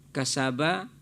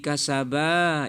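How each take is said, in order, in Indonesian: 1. Vokal akhirnya pendek. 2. Vokal akhirnya dipanjangkan. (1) "dari mufrad" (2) "menjadi musanna dia. Salah"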